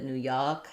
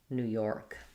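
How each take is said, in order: First: The R in York is weak or dropped. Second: The R in York is clearly pronounced. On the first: "With the New York accent, ... They don't tend to do a strong R there" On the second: "the rest of the country is going to do an or sound um, plus the K"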